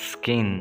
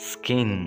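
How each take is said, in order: No difference in how they are said.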